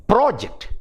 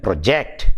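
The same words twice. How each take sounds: First: PRO-ject, high on PRO; first-syllable stress. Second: Pro-JECT, weight on JECT; second-syllable stress. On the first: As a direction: noun "project" with the first syllable punched. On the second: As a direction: verb "project" with a light first syllable. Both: Shown as a demonstration. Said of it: "The same way I told you".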